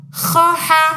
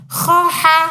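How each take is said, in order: Both takes have the same delivery.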